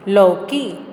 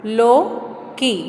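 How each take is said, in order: First: Said in the usual way. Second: लौकी drawn out slowly; teacher drawling लौकी slowly; slow stretched reading. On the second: Shown as a demonstration. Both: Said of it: "चौथा चित्र".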